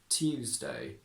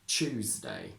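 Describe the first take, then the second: First: It begins with separate t and y sounds. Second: It begins with a merged ch sound. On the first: This is the older traditional upper-class accent. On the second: This is the current everyday standard accent.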